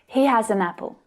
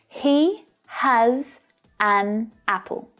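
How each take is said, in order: First: The words run together, linked into one flow. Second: The words are said separately, not linked.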